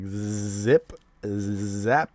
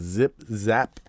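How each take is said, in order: First: The Z sounds are strongly exaggerated. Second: The Z sounds are said normally.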